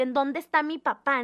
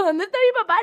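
First: Said in the usual way. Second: High, loud, frightened cry for her father; a startled kid suddenly looking for papá; panicked call. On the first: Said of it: "mi primer reacción de adrenalina". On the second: Retold or imitated. After the crash, the daughter cries out in panic for her dad.

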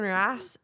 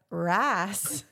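First: Southern "rice" said like "rass"; Southern-accented "rice" within an order. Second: Mimicked Southern accent. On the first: Retold or imitated. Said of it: "people love Southern accents". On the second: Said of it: "And she was like".

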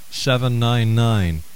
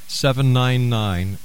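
The two takes are said the same way.

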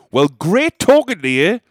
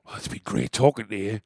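First: Loud, slow, pointed goodbye; loud aggressive farewell to the drunk lady. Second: Sarcastic. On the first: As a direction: say it loudly to end the awkwardness. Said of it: "I just said very loudly". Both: Retold or imitated.

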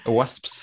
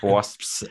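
First: Wasps said again a little higher and lighter; a second try at wasps; higher retry. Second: Wasps said slowly, each sound clear; careful wasps. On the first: Repeating the hard word for the host, lighter. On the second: Trying out a hard word for the podcast host, careful. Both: Shown as a demonstration. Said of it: "Like wasps".

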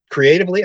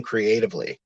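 First: Creatively said high and loud, incredulous; stress on creatively. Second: Said in the usual way. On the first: Real, not acted. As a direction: punch creatively with a scoffing lift. Repeats quoted word incredulously.

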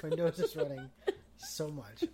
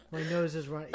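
First: Sniffling, laughing and crying; laugh-crying with a runny nose; snotty crying. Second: Runny nose, laughing through tears; sniffly laugh-cry; snotty crying. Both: Real, not acted.

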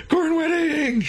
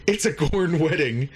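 First: Very high, hammed-up squeal; mock shriek. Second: Said in the usual way. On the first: Teller reveals the absurd wedding scene, high mock shriek.

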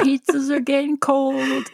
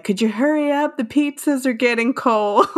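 First: Lightly imitated surfer-dude driver; truck driver. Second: Higher, laughing impression of a driver; playful quote of an impatient delivery guy; truck driver. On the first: Co-host echoing the pizza driver's line, truck driver voice. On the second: Host quoting the pizza driver hurrying someone, truck driver voice. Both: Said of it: "in the next scene when he's like".

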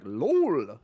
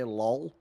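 First: Put-on drawn-out quasi-European accent on "lol"; mock a fake European accent, stretching "lol"; esports Euro accent. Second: Said in the usual way. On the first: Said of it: "they say, like, "lol". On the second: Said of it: "when they don't say "lol".

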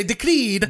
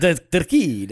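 First: "decreed" louder and higher, with a rolled R; put-on Italian accent. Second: Loud, fumbled try at an Italian "decreed"; failed Italian accent. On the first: Prompting the co-host, "decreed" in a fake Italian accent. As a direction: roll the R in "decreed" Italian-style. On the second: Copying the co-host, botched Italian accent. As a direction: attempt a rolled R in "decreed" and miss. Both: Shown as a demonstration. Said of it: "I can't do it".

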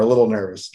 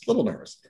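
First: Said in the usual way. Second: Softer, trailing echo; softer repeat. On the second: Real, not acted. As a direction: repeat it quietly to yourself.

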